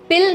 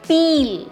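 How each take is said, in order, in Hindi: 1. स्वर छोटा और झटके वाला है। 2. स्वर लंबा और ज़ोर वाला है। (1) "पिल नहीं" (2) "थोड़ा सा स्ट्रेस देके प्रोनाउंस करते हैं"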